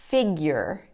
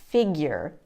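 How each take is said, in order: No difference in how they are said.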